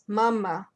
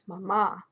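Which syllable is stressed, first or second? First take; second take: first; second. First: The stress is on the first syllable. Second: The stress is on the second syllable. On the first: The speaker calls it right. "there's an accent on the A, the first one, which uh, tells you the word stress" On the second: The speaker calls it wrong. "and not mama"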